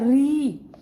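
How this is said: The syllable ends with an 'ee' vowel. This is the common pronunciation elsewhere. "बाकी जगह हम कैसे pronounce करते हैं इसका"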